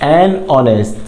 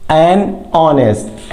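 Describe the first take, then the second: First: Said in the usual way. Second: "an honest" drawn out very slowly, silent H; teacher's slow model of "an honest" with the H dropped; slow model word. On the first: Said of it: "repeated at normal speed". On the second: Shown as a demonstration. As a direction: stretch "an honest" slowly, no H sound. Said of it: "slow modelled pronunciation".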